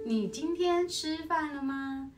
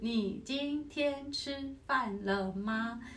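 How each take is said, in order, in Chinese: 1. 音节连在一起读，很流畅。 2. 每个音节分开读，是断开的。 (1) "那如果用连弓就是" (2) "那如果用分工拉就是"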